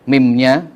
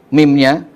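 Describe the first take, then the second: The two takes are said the same way.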